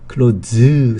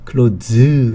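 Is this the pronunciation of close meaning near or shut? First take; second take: shut; shut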